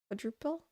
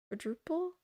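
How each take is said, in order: The two takes are said the same way.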